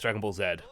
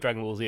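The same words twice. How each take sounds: First: The letter Z is said the British way. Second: The letter Z is said the American way. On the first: "it's Dragon Ball Z" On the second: "instead of Dragon Ball Z"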